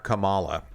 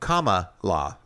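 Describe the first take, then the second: First: The stress is on a later syllable. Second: The stress is on the first syllable. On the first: The speaker calls it wrong. "I had my emphasis on the wrong syllable" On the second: The speaker calls it right. "like a comma"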